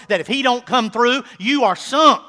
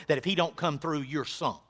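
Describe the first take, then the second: First: Louder and higher, rising on "don't"; full-force preacher's challenge; loud repeat. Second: Said in the usual way. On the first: Acted. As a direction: hurl the question at them.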